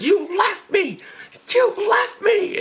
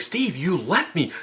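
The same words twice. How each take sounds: First: High-pitched, drawn-out mock yell; outraged accusation. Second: Slow, mildly raised accusation; accusing. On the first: Grabs brother, accusing him. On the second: Retold or imitated. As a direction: confront your brother reproachfully. Confronts brother, first milder take.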